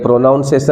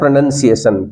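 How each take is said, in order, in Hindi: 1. दूसरा अक्षर 'nown' जैसा सुनाई देता है। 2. दूसरा अक्षर 'nun' जैसा सुनाई देता है। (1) "ये प्रोनाउंसिएशन नहीं है" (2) "इसका सही उच्चारण है"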